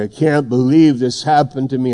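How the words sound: It sounds dismayed and upset.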